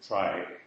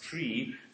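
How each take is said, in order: First: The word has an 'eye' vowel, like try. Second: The word has an 'ee' vowel, like tree. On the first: It avoids confusion with the word tree. "so I'll pronounce it try" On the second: It echoes the word retrieval. "it's supposed to be pronounced tree"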